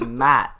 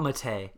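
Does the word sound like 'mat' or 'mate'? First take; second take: mat; mate. First: The word rhymes with 'cat'. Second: The word rhymes with 'late'. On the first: The speaker calls it right. "It's Matt" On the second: The speaker calls it wrong. "Not Mate"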